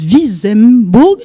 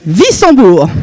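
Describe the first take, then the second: First: "Wissembourg" said slowly as "Viz-em-bour", with a z and sounded m; "Wissembourg" drawn out, unsure, with a z sound; hesitant mispronunciation. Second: "Wissembourg" said as "Vissan-bour", with s and nasal an; "Wissembourg" with a hissed s, nasal middle vowel; corrected pronunciation. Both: Real, not acted. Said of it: "Comment ça se prononce?".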